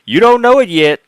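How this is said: It is said in a put-on woman's voice.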